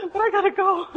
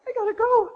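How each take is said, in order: First: High and loud, through laughter; laughing protest. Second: High, loud urgent call; urgent cry. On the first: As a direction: laugh while insisting you must go. Torn between prayer and flight. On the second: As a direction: blurt it out, you must leave now. Rushing to catch the bus. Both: Retold or imitated.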